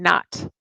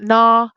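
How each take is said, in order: First: The word ends with a clear final t sound. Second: The word ends without a final t sound. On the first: The speaker calls it right. "You have to say this sound in the end" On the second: The speaker calls it wrong. "it's not na"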